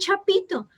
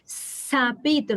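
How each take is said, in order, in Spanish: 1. La palabra empieza con el sonido ch. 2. La palabra empieza con el sonido s. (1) "no le digan la palabra mal dicha" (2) "dan el modelo correcto"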